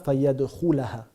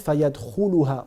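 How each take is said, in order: First: The vowel before the final syllable is 'a'. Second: The vowel before the final syllable is 'u'. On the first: The speaker calls it wrong. "on ne dit pas" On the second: The speaker calls it right. "à la fin on dit"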